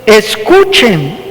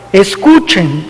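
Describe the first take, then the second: First: "Escuchen" drawn out slowly with a rising end; emphatic command. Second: Said in the usual way. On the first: Retold or imitated. Jesus opens the parable with "Escuchen", slow and emphatic. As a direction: stretch "Escuchen" slow and weighty, as a call to attention. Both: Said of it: "Jesús enfatiza esa palabra".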